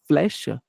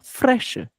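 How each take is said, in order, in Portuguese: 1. A consoante depois do f é l. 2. A consoante depois do f é r. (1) "Ao invés de ela falar flecha" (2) "Frecha com um R"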